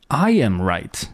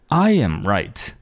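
First: The stress is on the word I. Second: The stress is on the word I.

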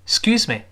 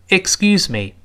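First: It is said quickly, the first syllable nearly lost. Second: It is said slowly, every syllable clearly heard. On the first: "那个ik 说的太快，顺着声音就飘走了" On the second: "我们如果不着急慢慢说，依然能够听全这个音节"

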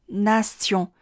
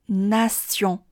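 The two takes are said the same way.

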